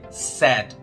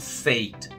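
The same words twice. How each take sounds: First: The vowel sounds like the one in 'sad'. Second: The vowel is pronounced as spelled, like 'ai'. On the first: The speaker calls it right. "a pronúncia é said" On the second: The speaker calls it wrong. "E não said. Eu sei que a gente vê um A I junto e já quer logo sair falando A"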